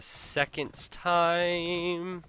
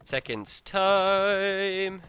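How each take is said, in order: First: SECOND'S TIME raised high, TIME held long; high sing-song stretch. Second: SECOND'S TIME higher and louder, TIME drawn out very long; climbing up in octaves. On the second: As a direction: push "second's time" up high and hold TIME. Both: Pretend. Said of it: "I'm not going up any more octaves".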